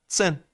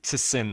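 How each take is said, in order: First: The t blends lightly into the 's' sound. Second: The t is forced out separately before 's'. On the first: The speaker calls it right. "نه نه سن" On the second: The speaker calls it wrong. "نمیخواد خیلی زور بزنی حتما ت رو تلفظ کنید"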